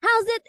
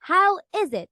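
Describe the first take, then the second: First: "How's it" run together as two syllables; "How's it" with the vowel of "is" dropped; shortened form. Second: Said in the usual way. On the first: Shown as a demonstration. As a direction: contract it to "How's it", like "howzit". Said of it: "is a shortened version of the phrase". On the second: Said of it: "of the English phrase".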